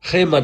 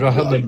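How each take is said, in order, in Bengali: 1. নামটি ফরাসি উচ্চারণে বলা হচ্ছে। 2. নামটি বাংলা উচ্চারণে বলা হচ্ছে। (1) "খেমান আমরা বলি" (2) "রহমান না"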